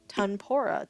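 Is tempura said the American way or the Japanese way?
American. It is said with an American English pronunciation. The speaker calls it wrong. "instead of tempura"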